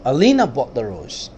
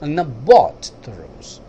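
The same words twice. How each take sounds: First: The stress is on the word Alina. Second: The stress is on the word bought. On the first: It was this person, not someone else, who bought it. "Ayesha नहीं, अलीना ने खरीदा।" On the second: It was bought, not stolen or taken. "उसने चोरी नहीं किया, ना ही उसने किसी से लिया, खरीदा उसने।"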